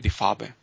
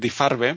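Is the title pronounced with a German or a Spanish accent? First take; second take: German; Spanish. First: It is pronounced with a German accent. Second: It is pronounced with a Spanish accent. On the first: It shows off the speaker's study of German. "voy a decir Die Farbe, que para algo estuve estudiando alemán" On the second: It is said so everyone understands. "Podría decir Die Farbe para entendernos"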